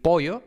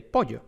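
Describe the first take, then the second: First: Loosen the ll of "pollo" into a vowel-like y; "pollo" with a weak, slack y; lax Y. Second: Said in the usual way. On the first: Shown as a demonstration. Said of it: "decir pollo en vez de pollo". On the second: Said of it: "en vez de pollo".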